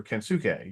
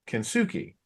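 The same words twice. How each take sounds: First: Kensuke said ken-soo-KAY, slowly; name as spelled. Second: Kensuke said ken-SOO-kee; name ending in KEE. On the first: Cohost giving the spelled version, Kensuke slowly ending in "kay". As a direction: say Kensuke with a final "kay" sound. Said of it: "which is basically how it's, like, spelled". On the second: Cohost showing how people say a wrestler's name, Kensuke ending in "kee". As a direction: say Kensuke with a final "kee" sound. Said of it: "I always heard people say his name as". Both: Shown as a demonstration.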